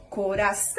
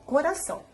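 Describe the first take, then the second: First: Prolonged final syllable in CORAÇÃO; calling out, stretched ÇÃO. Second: Said in the usual way. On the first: Shown as a demonstration. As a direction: call the word "coração", drawing out its final ÇÃO. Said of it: "Façam o teste chamando pela palavra". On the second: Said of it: "Se a gente for falar a palavra".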